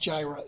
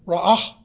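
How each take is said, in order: First: The word begins with a J sound. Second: The word begins with an R sound. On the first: The speaker calls it wrong. "It's not pronounced Jireh" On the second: The speaker calls it right. "R-A-A-H would be the pronunciation"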